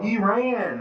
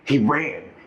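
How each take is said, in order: First: The voice is high and cracking. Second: The voice is deep with bass.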